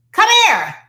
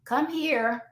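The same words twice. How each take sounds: First: Loud, high, sharp command; yelling. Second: Soft, restrained call; not yelling. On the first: Parent calling a misbehaving child over, yelling. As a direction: shout it as a scolding order. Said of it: "do we have a sense of yelling?". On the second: Parent calling a child who can hear, not yelling. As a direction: call the child over without raising the voice. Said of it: "why are you yelling?". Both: Acted.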